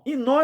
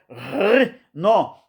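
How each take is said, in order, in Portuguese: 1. O nome começa direto com um som de vogal. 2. O nome começa com um som gutural forte. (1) "Inon é num bom português" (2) "Você rasga a garganta como se fosse dois R"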